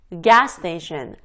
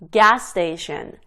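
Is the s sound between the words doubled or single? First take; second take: single; single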